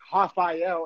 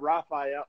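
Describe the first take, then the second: First: The name begins with a breathy H-like sound. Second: The name begins with an English R sound. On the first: This is how it is said in Brazil. "the R's in Brazil are like Rafael" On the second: This is how it is said outside Brazil. "instead of Rafael"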